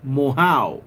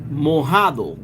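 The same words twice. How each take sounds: First: Mojao said slowly with the d dropped; slow Puerto Rican "mojao"; Puerto Rican Spanish. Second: Mojado said slowly with the d; slow, full mojado; standard Spanish. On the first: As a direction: drop the d from mojado. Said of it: "We say". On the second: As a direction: sound the d in mojado. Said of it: "means wet". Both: Shown as a demonstration.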